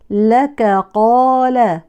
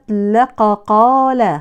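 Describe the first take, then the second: First: The first k sound is light and thin. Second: The first k sound is heavy and emphatic. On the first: The speaker calls it right. "فنقول" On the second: The speaker calls it wrong. "اوعوا تفخموا الاتنين"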